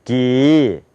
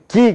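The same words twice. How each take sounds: First: Long "기" swelling from the throat; American-style 기. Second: Short "기" at the front of the mouth; plain Korean "기"; Korean-style 기. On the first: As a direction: stretch "기" slowly in two stages. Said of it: "그게 아니라". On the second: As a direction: say "기" quickly in one opening. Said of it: "우린 기 그러잖아요". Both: Shown as a demonstration.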